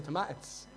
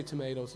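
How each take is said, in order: First: Tomatoes as "tom-ah-tis", short a, clipped tis ending; Dublin pronunciation. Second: Said in the usual way. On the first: Shown as a demonstration. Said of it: "We say tomatoes". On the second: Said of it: "We don't say tomatoes in Dublin".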